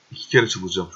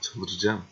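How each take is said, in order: First: "kere" pushed louder on the second go; louder frustrated repeat. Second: Said in the usual way. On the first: Real, not acted. Gamer whose game keeps freezing, stress on "kere". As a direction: escalate the complaint, hit "kere".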